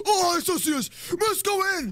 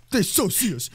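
First: Very high, panicky cry; panicked squeal. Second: Raised, worried realisation; rising alarm. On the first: Spotted player urging teammate, panicked squeal. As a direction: squeal it in full alarm. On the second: Hidden player realises they are seen, rising alarm. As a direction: say it with growing alarm. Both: Real, not acted.

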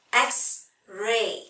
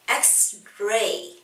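No difference in how they are said.

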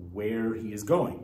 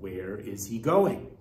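First: Said as a plain statement, falling; flat statement. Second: Asked as a real question, rising on going. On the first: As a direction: state it, no question. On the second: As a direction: ask it, lift the end. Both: Shown as a demonstration. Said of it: "you'd ask a question".

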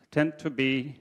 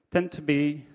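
The two takes are said the same way.

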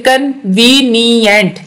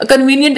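First: "convenient" slowly in four beats; split into syllables. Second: Said in the usual way. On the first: Shown as a demonstration. Teacher showing four syllables, "convenient" broken apart. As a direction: sound out "convenient" as कन, वी, नी, यंट. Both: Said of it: "ये चार syllable है".

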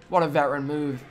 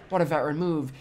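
Both takes have the same delivery.

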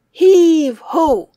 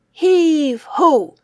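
Both takes have the same delivery.

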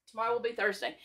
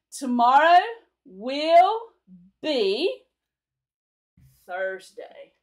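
First: Said in the usual way. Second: Each word stretched and set apart, loud; slow word-by-word. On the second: Shown as a demonstration. Teacher modelling the future tense slowly for students. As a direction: say it word by word for learners. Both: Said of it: "Will be is future tense".

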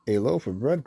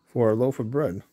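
First: "A loaf of bread?" with a rising, disbelieving tune; mildly astonished echo, lifting on "bread"; a touch of disbelief, rising on "bread"; surprised cry. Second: Said in the usual way. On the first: Acted. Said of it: "cried Missus Hayes". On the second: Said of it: "said Goofy".

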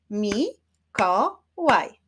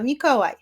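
First: "Mi-ko-łaj" slowly, each syllable on its own; teacher clapping out "Mi-ko-łaj". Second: Said in the usual way. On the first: Shown as a demonstration. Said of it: "Wyklaszczmy sylaby". („Mi-ko-łaj” wolno, z podziałem na sylaby) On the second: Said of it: "Zacznijmy od imienia".

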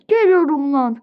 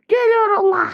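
First: Said in the usual way. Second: Higher-pitched, more worked-up call; raised cry. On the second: Pretend. Teacher setting off after the other children, high cry. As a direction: throw it out high and heated. Repeated, raised threat of coming.

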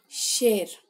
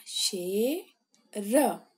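First: Plain. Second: शेर held very slowly; drawn-out model word. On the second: Teacher models शेर slowly for young pupils. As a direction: sound out शेर slowly syllable by syllable. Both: Shown as a demonstration. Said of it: "श में ए की मात्रा".

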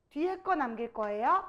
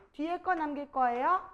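No difference in how they are said.

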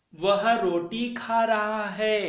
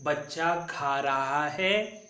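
First: Slow, higher and louder, stressing खा; slow emphatic recitation. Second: Slow and even, word by word; slow model pronunciation. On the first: Teacher recites again slowly and loudly for pupils. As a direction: lift the voice and stretch each word. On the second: Teacher repeats the sentence slowly for the class. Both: Shown as a demonstration. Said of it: "फिर से एक बार उच्चारण करेंगे".

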